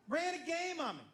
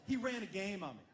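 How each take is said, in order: First: Ran said much higher and punched; stress on Ran. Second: Said in the usual way. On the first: Real, not acted. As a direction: lean hard into Ran, higher.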